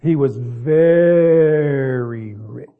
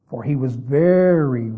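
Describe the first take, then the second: First: Very stretched out long and loud; very very slowly sung out rich; stretched word. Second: Very drawn out slowly; slow stretched very; stretched emphasis. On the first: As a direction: drag out very slowly and loudly. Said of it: "Can I stretch that word out?". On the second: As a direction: lean on very and stretch it. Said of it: "can I emphasize that?". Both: Shown as a demonstration.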